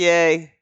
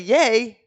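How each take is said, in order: First: The word is said flatly and sarcastically. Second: The word is said brightly and excitedly. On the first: The writer is not really pleased. "would it seem sarcastic" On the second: The writer is genuinely happy. "then they know that I'm excited"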